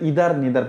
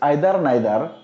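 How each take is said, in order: First: The words begin with an 'ee' vowel sound. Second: The words begin with an 'eye' vowel sound.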